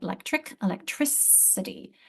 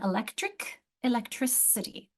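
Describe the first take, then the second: First: "electric" with a hard K, "electricity" with a soft S; consonant change demo. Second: "Electric" with a hard K, "electricity" with an S sound; consonant change demo. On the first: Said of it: "I'm following the C by an I". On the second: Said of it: "consonant alteration". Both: Shown as a demonstration.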